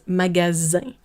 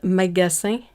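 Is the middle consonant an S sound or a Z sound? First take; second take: Z; S. First: The middle consonant is a buzzing Z sound. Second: The middle consonant is a hissing S sound. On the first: The speaker calls it right. "pronounced like a Z or Z instead of a S" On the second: The speaker calls it wrong. "So it's not"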